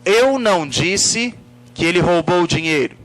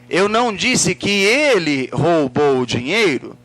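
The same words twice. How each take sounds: First: The word eu carries the emphasis. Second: The word ele carries the emphasis. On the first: It refers to who said it. "Se eu coloco a ênfase na palavra eu" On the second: Someone else might have stolen it. "quem foi que roubou?"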